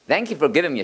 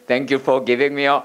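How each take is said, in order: First: It is said with strong stress accents. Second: It is said flat, without stress accents.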